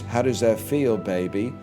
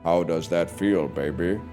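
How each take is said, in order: First: It is said in a normal pitch. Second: It is said in a deeper, lower voice.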